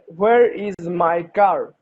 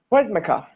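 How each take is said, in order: First: Each word is said fully and separately. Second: The words are squeezed together quickly.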